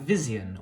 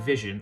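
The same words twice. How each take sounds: First: The suffix is pronounced fully, as spelled. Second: The suffix is reduced, as in modern speech. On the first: "suffixes were still pronounced the way they're spelled" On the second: "where we would say"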